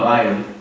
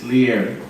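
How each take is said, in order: First: The two parts run together as one blend. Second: The two parts are kept clearly separate. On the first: The speaker calls it wrong. "it's not liar" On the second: The speaker calls it right. "it's separated the L I and the E R"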